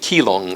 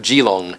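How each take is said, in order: First: The name is given its familiar English pronunciation. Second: The name is given its Mandarin Chinese pronunciation.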